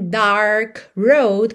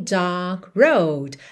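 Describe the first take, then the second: First: The R after the vowel is pronounced. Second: The R is dropped, British style.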